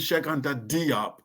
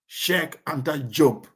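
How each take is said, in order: First: The surname begins with a D sound. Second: The surname begins with a J sound. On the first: This is the European way of saying the name. The speaker calls it wrong. "with a D. That's actually the European uh, pronunciation" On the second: This is how the name is said in Senegal. The speaker calls it right. "in the Wolof, his, his name is actually pronounced Job"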